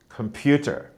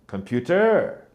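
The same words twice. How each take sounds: First: The stress is not on the last syllable. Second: The stress is on the last syllable. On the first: The speaker calls it right. "whereas actually it should be" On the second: The speaker calls it wrong. "they will often say"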